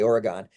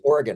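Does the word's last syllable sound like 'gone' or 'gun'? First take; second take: gone; gun. First: The last syllable sounds like 'gone'. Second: The last syllable sounds like 'gun'. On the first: The speaker calls it wrong. "They know you're from out of state if you say Oregon. Yeah, there's no e on the end" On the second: The speaker calls it right. "So it's Oregon, like an organ in your body"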